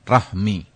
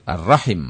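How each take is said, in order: First: The word ends with the sounds 'hmi'. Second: The word ends with the sounds 'him'. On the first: The speaker calls it wrong. "bukan rahmi" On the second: The speaker calls it right. "yang betul rahim"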